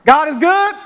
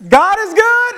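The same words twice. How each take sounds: First: Calling out God is good, raised and loud; call to the congregation. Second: God is good called much higher and louder; with your chest. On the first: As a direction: call it out to the room to get a reply. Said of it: "All right, let's try". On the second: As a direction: belt it from the chest to lift the room. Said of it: "I want you to say it with your chest". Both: Shown as a demonstration.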